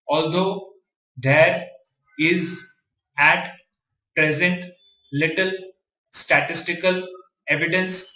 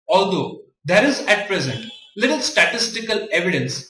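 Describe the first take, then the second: First: Each word is read separately with pauses. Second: Words are grouped smoothly into meaningful chunks.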